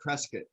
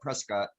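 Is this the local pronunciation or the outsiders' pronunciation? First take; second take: local; outsiders. First: It is said the way locals say it. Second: It is said the way outsiders say it.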